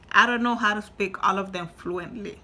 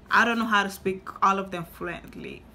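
The two takes are said the same way.

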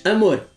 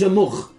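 First: Amor ending in a soft tapped R; correct soft R. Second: Amor ending in a guttural R; wrong strong R. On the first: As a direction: say amor with a light tapped final R. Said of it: "dizes amor". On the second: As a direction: say amor with a strong throaty final R. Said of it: "Tu não dizes amor". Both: Shown as a demonstration.

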